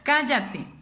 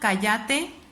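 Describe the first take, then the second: First: The stress is on the first syllable. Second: The stress is on the last syllable. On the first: "O en la antepenúltima, que sería" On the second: "En la última"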